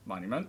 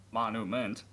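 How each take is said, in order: First: Said in the usual way. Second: MONUMENT as "mon-oo-ment"; misspelling read out. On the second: Shown as a demonstration. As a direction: sound out MONUMENT without the y-glide. Puzzles over a misspelt word.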